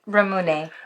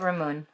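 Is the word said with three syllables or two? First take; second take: three; two. First: The word ends in a 'neh' sound. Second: The word ends in an 'oon' sound. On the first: The speaker calls it right. "But Ramune" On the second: The speaker calls it wrong. "we had the right pronunciation. Because we were just calling it Ramoon"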